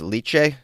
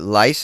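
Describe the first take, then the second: First: The name ends with a ch sound. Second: The name ends with an s sound. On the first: "Maybe it's liche" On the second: "I'm pronouncing it as lice"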